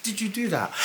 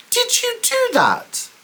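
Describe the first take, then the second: First: Said in the usual way. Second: Much higher, slowed, drawn-out demand; pointed question. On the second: Retold or imitated. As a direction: press him for the truth, slowly. Confronting him on the phone.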